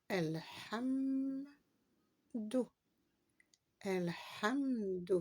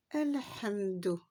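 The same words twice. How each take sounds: First: Elhamdu said slowly, the h sounded clearly; slow demo. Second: Elhamdu said slowly, landing on the d; slow demo. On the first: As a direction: draw out Elhamdu, stressing the h. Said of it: "Voici la lettre H". (Elhamdu lentement, en marquant le h) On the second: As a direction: stretch Elhamdu out. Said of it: "la lettre Del". (Elhamdu lentement, bien appuyer le d) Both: Shown as a demonstration.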